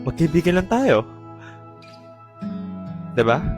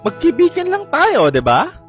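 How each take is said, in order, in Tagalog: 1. Sinabi ito sa tonong nadidismaya. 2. Sinabi ito sa sarkastikong tono.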